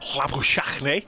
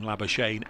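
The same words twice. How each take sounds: First: The name is said the South African way. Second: The name is said the usual English way. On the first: This is how people from southern Africa say it. The speaker calls it right. "the correct pronunciation is Labuschagne" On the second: This is how most people say it. The speaker calls it wrong. "everybody calls him Labuschagne"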